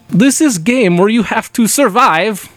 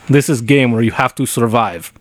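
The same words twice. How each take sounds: First: It is read in a put-on Russian accent. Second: It is read in a normal, unaccented voice. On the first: "will you read it in Russian accent?" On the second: "Go back to normal"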